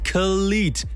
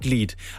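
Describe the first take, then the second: First: It starts with a clear, separate K sound. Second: It starts with a soft G sound. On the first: The speaker calls it right. "ich spreche es jetzt nochmal ganz besonders deutlich aus" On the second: The speaker calls it wrong. "nicht Glied"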